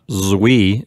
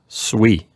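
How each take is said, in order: First: The word begins with a buzzing Z sound. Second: The word begins with a hissing S sound. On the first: The speaker calls it wrong. "I was tempted to pronounce it with a Z sound" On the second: The speaker calls it right. "it gets a hissing S sound at the beginning"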